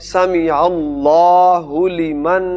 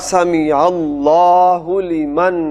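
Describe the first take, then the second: No difference in how they are said.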